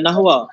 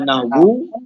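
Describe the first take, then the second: First: The word ends with an a vowel. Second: The word ends with a u vowel. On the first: "boleh baca nahwa" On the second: "boleh baca nahwu"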